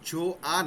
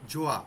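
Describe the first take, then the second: First: The two vowels are said as separate syllables. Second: The two vowels blend into one gliding syllable. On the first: The speaker calls it wrong. "জো আ না" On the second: The speaker calls it right. "ওটা ওয়াটার মতো উচ্চারণ হবে"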